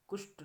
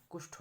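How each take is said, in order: First: कुष्ठ ending in unaspirated ट, pitched higher; wrong pronunciation. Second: कुष्ठ ending in aspirated ठ; correct pronunciation. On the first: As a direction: say कुष्ठ as "kusht". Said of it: "नहीं होता". (कुष्ठ के अंत में ट बोलें) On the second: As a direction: say कुष्ठ as "kushth", with a puff. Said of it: "होता है". (कुष्ठ के अंत में महाप्राण ठ बोलें) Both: Shown as a demonstration.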